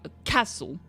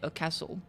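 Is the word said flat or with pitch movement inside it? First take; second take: pitch movement; flat. First: The pitch moves, stressing one syllable. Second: All syllables are said on one flat pitch. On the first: The speaker calls it right. "you say a castle" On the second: The speaker calls it wrong. "you don't say a castle"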